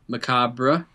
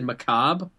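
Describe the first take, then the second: First: The word ends with a final vowel. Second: The word ends without a final vowel. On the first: "I hear people do a little bit of like the macabre" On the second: "you said macabre"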